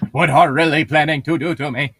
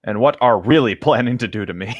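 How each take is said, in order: First: Mocking. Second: Laughing. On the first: Mocking the misread line. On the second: Real, not acted. Mocking misread line.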